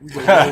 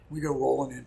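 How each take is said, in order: First: Laughing. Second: Said in the usual way. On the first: Real, not acted. Repeated through loud laughter.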